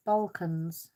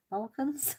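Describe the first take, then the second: First: Said in the usual way. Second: "Balkans?" asked with a high questioning rise; checking if "Balkans?" is said right; unsure rising Balkans. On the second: Shown as a demonstration. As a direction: try "Balkans?" tentatively, pitch climbing up. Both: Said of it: "Have I said that right?".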